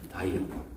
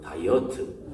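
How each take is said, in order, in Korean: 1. 영어 같은 발음으로 했어요. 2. 포항 지역 억양으로 발음했어요. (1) "본토 발음으로" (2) "우리 포항 본토 발음으로"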